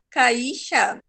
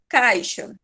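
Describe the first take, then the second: First: The A and I are split apart. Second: The A and I form one syllable. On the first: The speaker calls it wrong. "Se não ficasse junto, eu falaria caixa" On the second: The speaker calls it right. "Em caixa, o A I fica junto"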